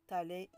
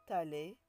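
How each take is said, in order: Both takes have the same delivery.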